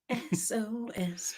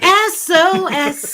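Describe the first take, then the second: First: It is said at normal, quiet volume. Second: It is said louder, with more force.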